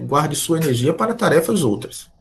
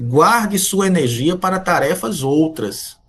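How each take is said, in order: First: Said in the usual way. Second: Slow, weighty, "Guarde" falling; slow solemn advice. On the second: Shown as a demonstration. Professor counselling students on time, slow and solemn. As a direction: spell the counsel out word by word. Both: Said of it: "se me fosse permitido um conselho".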